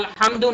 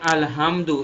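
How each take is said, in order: First: The h is a deep, throaty breathy sound. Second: The h is a plain, light ordinary sound. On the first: It means all praise. The speaker calls it right. "আমরা যদি আলহামদু না বলে" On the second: It means dirty clothes or dirty things. The speaker calls it wrong. "এভাবে বলি, আলহামদু যদি বলে ফেলি উচ্চারণগত ভুল করার কারণে"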